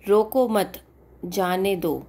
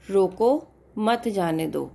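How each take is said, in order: First: "रोको मत" together, then a break, then "जाने दो"; group मत with रोको, pause, finish on a falling जाने दो; pause after मत. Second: "रोको" alone, a break, then "मत जाने दो"; group मत with जाने दो, falling at the end; pause after रोको. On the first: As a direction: hold a beat after मत before saying जाने दो. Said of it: "एक सेकंड के लिए रुके". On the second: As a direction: hold a beat after रोको before मत. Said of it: "दो तरीके से पढ़ सकते हो". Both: Shown as a demonstration.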